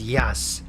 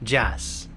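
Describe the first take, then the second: First: It starts with a 'y' sound. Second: It starts with an English-style 'j' sound. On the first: The speaker calls it right. "but it's yas and yono" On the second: The speaker calls it wrong. "it's like j, jono, jas"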